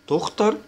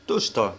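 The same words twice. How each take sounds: First: تختر, its middle consonant like Arabic خ; kh sound. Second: تشتر, its middle consonant like Arabic ش; sh sound. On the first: Teacher contrasting singular and plural, throaty kh. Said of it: "بيتنطق زي الخاء". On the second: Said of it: "بتتنطق زي الشين". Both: Shown as a demonstration.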